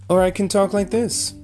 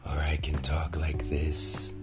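First: The voice is pitched high. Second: The voice is airy and breathy. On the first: "I'm talking in a higher tone of voice" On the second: "I'm talking all breathy"

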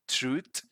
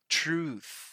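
First: The word ends without a clear 'th' sound. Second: The word ends with a clear 'th' sound. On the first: The speaker calls it wrong. "Sometimes people pronounce this as truth, truth. That's not right" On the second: The speaker calls it right. "The right way to pronounce it both in British and American English is truth"

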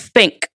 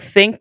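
First: The word begins with an f sound. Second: The word begins with a th sound. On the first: "Replace TH with F or V. So think becomes think" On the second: "Replace TH with F or V"

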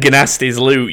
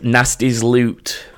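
First: The name starts with a hard G sound. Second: The name starts with a plain N sound. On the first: The speaker calls it right. "they pronounce the G" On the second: The speaker calls it wrong. "I purposely pronounced it wrong as well"

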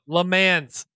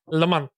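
First: The name is said with an American pronunciation. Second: The name is said with a French-style pronunciation.

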